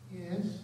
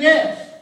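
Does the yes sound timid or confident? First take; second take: timid; confident. First: It is said timidly and hesitantly. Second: It is said firmly and confidently.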